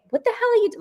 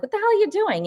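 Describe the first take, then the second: First: High-pitched mock yell cut off; imitating yelling at the aunt; retold yell. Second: High-pitched mock yell; imitating a startled shout at the aunt; retold yell. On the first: Yelling at her aunt on the stairs, high mock yell. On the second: Startled at her aunt after the door slams, high mock yell. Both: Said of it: "I'm yelling at her".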